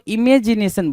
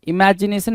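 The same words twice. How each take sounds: First: I-MAY-ji-ne-san, long "may"; misread imagination. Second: I-MA-ji-ne-san, open "ma"; correct imagination. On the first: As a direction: say इमेजिनेशन with "may" as second syllable. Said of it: "और वो इमेजिनेशन बोल रहा है". (इमेजिनेशन में "मे" खींचकर बोलें) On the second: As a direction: say इमेजिनेशन with an open "maa/mae", not "may". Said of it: "नहीं बोल रहा". (इमेजिनेशन को "इमैजिनेशन" बोलें) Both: Shown as a demonstration.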